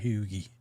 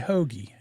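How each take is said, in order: First: The first vowel sounds like oo. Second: The first vowel is a standard long o. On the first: "not hoogie" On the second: "do I say I say hoagie"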